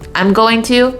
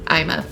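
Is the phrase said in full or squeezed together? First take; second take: full; squeezed. First: Each word is said fully and clearly. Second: The words are squeezed into two short syllables.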